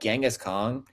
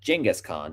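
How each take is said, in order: First: The name is said the common English way. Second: The name is said the original way. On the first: The speaker calls it wrong. "or excuse me" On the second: The speaker calls it right. "That is the actual pronunciation of his name"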